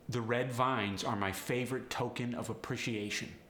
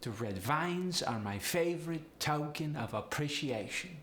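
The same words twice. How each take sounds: First: Said in the usual way. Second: Higher Polish accent, rising at the end; sing-song Polish upward inflection. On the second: Shown as a demonstration. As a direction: lift the diphthongs like a Polish speaker. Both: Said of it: "upward inflection with these sentences".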